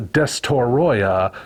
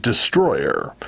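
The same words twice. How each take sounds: First: Destoroyah in four syllables, des-to-ROY-ah; Destoroyah, slow and ending in an open ah; pronounced as spelled. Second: Destroyer in three syllables, de-STROY-er; Destroyer, no o after the t, ending in er; pronounced as English word. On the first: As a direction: sound out Destoroyah with an o after the t. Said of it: "is spelled Destoroyah". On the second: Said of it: "but it's pronounced Destroyer". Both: Shown as a demonstration.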